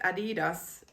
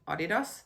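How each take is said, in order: First: The brand name is said the American way. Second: The brand name is said the Finnish way. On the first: "when I hear so many people saying it" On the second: "in Finnish I would call it"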